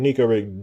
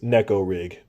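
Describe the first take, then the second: First: The name is given an Americanized pronunciation. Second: The name is given a Japanese-style pronunciation. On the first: "we're Americans and we do what we want to do over here" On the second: "the real term is Neko rig if you pronounce it the way the Japanese intended"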